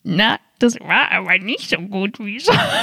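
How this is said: It is said in a put-on voice.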